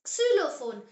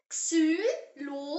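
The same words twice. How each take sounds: First: Said in the usual way. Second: "Xylophone" slow, each syllable separate; slow model pronunciation. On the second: Shown as a demonstration. Teacher has learners repeat the German word, slow model pronunciation. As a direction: say "Xylophone" slowly in three detached German syllables. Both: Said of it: "Say it".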